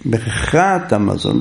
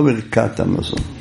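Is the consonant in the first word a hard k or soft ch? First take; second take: soft ch; hard k. First: The first word has a soft ch sound. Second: The first word has a hard k sound. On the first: The speaker calls it right. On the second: The speaker calls it wrong.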